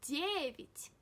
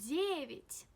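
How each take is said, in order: No difference in how they are said.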